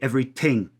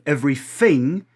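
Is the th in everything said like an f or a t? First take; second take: t; f. First: The th sound is said like a t. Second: The th sound is said like an f. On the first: "they drop it or stop it" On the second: "instead of fronting it"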